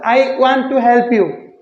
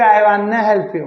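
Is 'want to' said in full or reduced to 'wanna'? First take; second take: full; reduced. First: 'Want to' is said as two full words. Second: 'Want to' is reduced to one word, 'wanna'.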